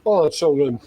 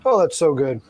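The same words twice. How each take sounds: First: Savoring, talking while chewing; smacking lips over food; mouth full. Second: Repeated while chewing; mouth full. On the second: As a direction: lips smacking, mouth full. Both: Real, not acted. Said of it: "Y'all get to hear me smacking my lips".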